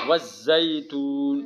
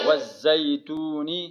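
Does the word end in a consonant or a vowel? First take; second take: consonant; vowel. First: The word ends on a bare consonant. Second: The word ends with a short final vowel. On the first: The reading stops at this word. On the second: The reading continues past this word.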